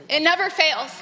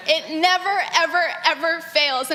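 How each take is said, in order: First: Said in the usual way. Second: "never, ever, ever" each pressed harder; stress on never ever. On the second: Real, not acted. Speaker tells the gathering love never fails, stressing "ever, ever". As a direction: lean into "ever, ever" one beat after another.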